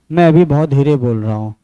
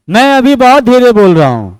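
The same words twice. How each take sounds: First: Softer, lower, hushed demo voice; speaking very softly. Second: Same words back at full, stronger voice; speaking louder. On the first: Teacher shows students a soft voice, quietly. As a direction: drop the voice to show a quiet sound. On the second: Teacher shows students a louder voice, firmly. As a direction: raise the voice to show a louder sound. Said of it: "अभी मैंने जब ज्यादा जोर से बोला ना". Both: Shown as a demonstration.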